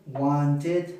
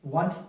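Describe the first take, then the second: First: "wanted" in two syllables, ending "id"; correct -id ending. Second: "wanted" squeezed to end in a hard t; wrong final T. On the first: Teacher models the right form, "wanted" with -id ending. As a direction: give "wanted" its full second syllable, "id". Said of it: "van a ser id". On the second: Teacher demonstrates bad English, "wanted" with final T. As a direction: finish "wanted" on a crisp T. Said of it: "como con T al final". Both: Shown as a demonstration.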